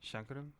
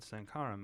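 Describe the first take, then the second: First: The name begins with a 'sh' sound. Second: The name begins with an 's' sound. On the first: The speaker calls it right. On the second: The speaker calls it wrong.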